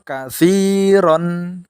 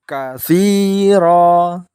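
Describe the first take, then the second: First: The word ends with an n sound. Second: The word ends with a long vowel. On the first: The reading continues without a stop. "sad wasol katsiron, ro-nya dibaca tanwin fathah" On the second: The reading stops at this word. "tanwinnya diganti fathah dan dibaca panjang dua harokat"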